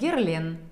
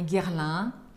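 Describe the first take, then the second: First: The name is said with plain Russian sounds. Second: The name is said with French nasal sounds. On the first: "произносить его на русский манер" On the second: "как говорят это французы"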